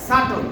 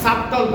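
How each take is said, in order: First: No b sound is pronounced before the t. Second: A b sound is pronounced before the t. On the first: The speaker calls it right. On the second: The speaker calls it wrong. "সাবটল না"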